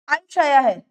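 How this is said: It is said with surprise.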